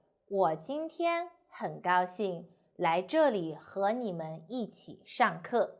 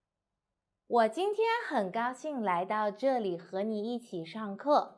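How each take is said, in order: First: Slow, broken into short breath groups; phrased with pauses. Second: Whole sentence in one breath; without pauses. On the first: Teacher showing the more comfortable way, phrased with pauses. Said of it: "So how I say it?". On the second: Teacher showing a long sentence is too hard, run together without pauses. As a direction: run the phrase on without stopping. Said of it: "say this sentence without breath". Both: Shown as a demonstration.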